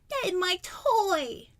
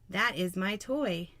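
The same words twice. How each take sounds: First: It is read in a childish toddler voice. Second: It is read in a plain adult voice.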